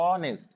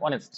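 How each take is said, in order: First: "অনেস্ট" with the opening "অ" held apart from "নেস্ট"; syllable by syllable. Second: Said in the usual way. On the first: Shown as a demonstration. Teacher showing two syllables of "অনেস্ট", drawn apart. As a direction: draw out "অ", then add "নেস্ট". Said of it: "অনেস্টের দুটো syllable". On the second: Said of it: "আমরা বলি অনেস্ট".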